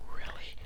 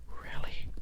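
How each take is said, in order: Both takes have the same delivery.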